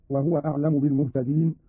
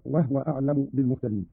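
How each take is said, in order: First: Said in the usual way. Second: No vowel after the h in "وهو"; silent vowel on ha. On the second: Shown as a demonstration. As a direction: say "وهو" as wahwa. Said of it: "بإسكان الهاء هكذا". (إسكان الهاء في "وهو")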